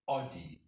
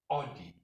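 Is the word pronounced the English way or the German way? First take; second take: English; English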